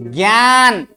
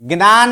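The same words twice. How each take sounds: First: ज्ञान as "gyaan", with gy and long aa; correct ज्ञान. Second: ज्ञान as "gnaan", g straight into n; wrong ज्ञान. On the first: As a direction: draw out ज्ञान with a y glide after g. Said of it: "क्या बोला जाता है इसमें?". (ज्ञान को "ग्यान" बोलना) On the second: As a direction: show the mistaken gn onset in ज्ञान. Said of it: "ज्ञान नहीं". (ज्ञान को "ग्नान" बोलना) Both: Shown as a demonstration.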